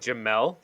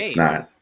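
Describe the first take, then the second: First: The name ends with an L sound. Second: The name ends with an S sound. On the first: The speaker calls it wrong. "It's not an L" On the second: The speaker calls it right. "That's an S"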